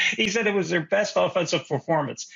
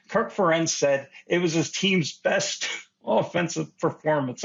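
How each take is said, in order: First: Disbelieving, stress on "He"; incredulous. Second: Chuckling through the words; trying not to laugh; laughing while speaking. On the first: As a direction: repeat it in mock disbelief. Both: Real, not acted. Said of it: "I can't even say this with a straight face".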